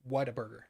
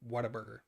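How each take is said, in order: No difference in how they are said.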